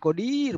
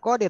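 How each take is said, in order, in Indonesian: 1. Vokal panjang ada di suku kata kedua. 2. Vokal panjang ada di suku kata pertama. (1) "tapi kodir, banyak kekuasaannya"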